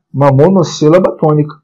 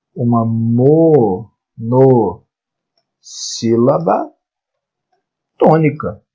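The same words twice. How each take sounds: First: Said in the usual way. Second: "monossílaba" stretched very slowly, pausing between syllables; very slow, segmented teaching of "monossílaba tônica". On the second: Shown as a demonstration. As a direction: draw out each syllable, then set "tônica" apart. Teacher spells out the term slowly.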